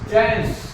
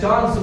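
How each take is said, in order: First: The vowel is a flat, front 'a' sound. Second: The vowel is a broad, open 'ah' sound. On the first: "ये लोग क्या बोलते हैं" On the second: "हम लोग ... बोलते हैं"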